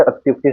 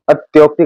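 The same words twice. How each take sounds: First: अत्युक्ति said atyukti with a short u; short u in अत्युक्ति, said calmly; correct form. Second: अत्योक्ति said atyokti with an o; wrong form. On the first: Teacher correcting students, अत्युक्ति said with a short u. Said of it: "सही है". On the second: Teacher warning exam students, अत्योक्ति said with an o. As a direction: give the wrong o vowel in अत्योक्ति. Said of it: "गलत है". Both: Shown as a demonstration.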